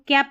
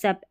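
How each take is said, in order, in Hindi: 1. यह शब्दांश 'k' ध्वनि से शुरू होता है। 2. यह शब्दांश 's' ध्वनि से शुरू होता है।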